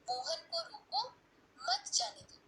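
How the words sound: The pause comes right after 'roko', before 'mat'.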